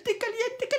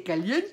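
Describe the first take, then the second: First: Caliente squealed much higher; playful squeal. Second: Said in the usual way. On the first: Acted.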